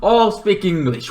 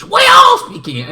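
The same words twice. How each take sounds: First: Said in the usual way. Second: Much higher, louder and faster, "all" shouted; shouted repeat. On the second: Retold or imitated. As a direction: blast the repeat like a cheer. Family drilling speaking English.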